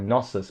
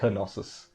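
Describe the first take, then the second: First: The starting K is silent. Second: The starting K is pronounced. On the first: "I always thought it was like" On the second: "they pronounce the K too"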